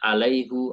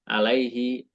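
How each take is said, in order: First: The final vowel is a 'u' sound. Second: The final vowel is an 'i' sound. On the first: This is a regional Middle Eastern reading. "Kalau mereka alaihu" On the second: This is the usual standard reading. "Kalau kita kan alaihi"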